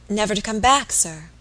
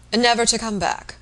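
First: NEVER TO COME BACK asked with a rise on BACK; questioning. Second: NEVER TO COME BACK as a statement, falling at the end; confirming. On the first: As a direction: ask it anxiously, lifting "back", then drop "sir". Maid questions the news. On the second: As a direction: confirm it firmly, pitch falling onto "back". Gentleman confirms the news. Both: Acted.

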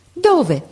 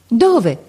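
First: High, startled cry of hope; urgent cry. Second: Louder, insistent shout; shouted again. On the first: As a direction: leap up and cry out the question high. (grido acuto e ansioso) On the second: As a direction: press the question with a louder cry. (grido più forte e insistente) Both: Acted. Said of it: "gridò Marco saltando su".

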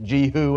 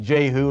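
First: Jehu starting like Jesus, with long 'ee'; Jehu as JEE-hoo. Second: Jehu with a long 'ay', the common pronunciation; Jehu as JAY-hoo. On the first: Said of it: "Jesus starts the same way". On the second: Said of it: "Many people pronounce it". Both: Shown as a demonstration.

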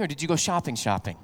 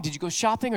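First: Leaning on the first 'shopping', the second 'shopping' dropped low and soft; knowing wife's question, second 'shopping' falling away; doubled-word emphasis. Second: Soft 'shopping' said once, rising at the end; quiet imitation of wife asking, 'shopping' left open; plain shopping question. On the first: Retold or imitated. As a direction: stress 'shopping', then repeat 'shopping' lower, confidentially. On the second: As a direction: ask it lightly, voice lifting on 'shopping'. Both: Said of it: "you know exactly what that means".

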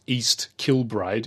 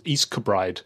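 First: East Kilbride with a full, clear KIL-bride; spelling pronunciation. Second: East Kilbride run together as east-kuh-BRIDE; local pronunciation. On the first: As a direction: sound out the L in East Kilbride, slowly. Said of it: "It's not pronounced". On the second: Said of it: "it's pronounced". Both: Shown as a demonstration.

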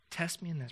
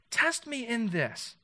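First: Soft, plain-pitched "Test me in this"; quiet recap. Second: "Test" hit hard and drawn out, slow and high; slow, high-pitched "Test me in this"; challenge. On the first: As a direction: murmur "Test me in this" as a reminder. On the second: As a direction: stretch "Test me in this" as a dare. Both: Acted.

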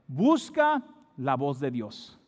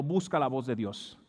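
First: Very slow, stretched "Busca", then a pause; emphatic exhortation. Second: Said in the usual way. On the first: Real, not acted. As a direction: urge it deliberately, setting "Busca" apart. Repeats exhortation slowly for emphasis. (exhortación lenta, recalcando "Busca")

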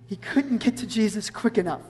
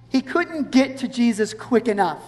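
First: Softer, reflective emphasis; hushed repetition. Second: Said in the usual way. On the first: Real, not acted. Preacher repeating the point to the congregation, hushed. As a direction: drop the voice to let it sink in.

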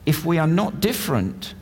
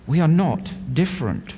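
First: "not" leaned on in "If we are not different"; stress on not. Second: "we" stressed at the start of "we are not different". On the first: Preacher tells the congregation to write it down, hitting "not". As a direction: press the word "not", falling off after it. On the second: Preacher repeats the line for note-takers, leaning on "we". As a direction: open strongly on "we", then let it fall. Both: Shown as a demonstration. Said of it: "I want you to write this down".

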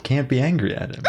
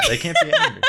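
First: Said in the usual way. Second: High squeaky laughing repeat. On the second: Acted.

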